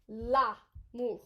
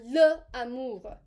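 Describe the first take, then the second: First: The article and noun blend into one word. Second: The article and noun are said separately. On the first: The speaker calls it right. "It blends together" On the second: The speaker calls it wrong. "Please do not say les amours or le amour"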